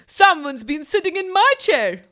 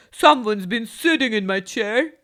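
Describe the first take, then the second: First: A bit higher and louder, lightly voiced mother bear; a hint of Mother Bear, middling; medium-sized voice. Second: Loud booming papa bear; loud Father Bear complaint. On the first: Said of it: "she said in a medium-sized voice". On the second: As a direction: boom it like a big bear. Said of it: "he said in a very loud voice". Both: A narrator's reading.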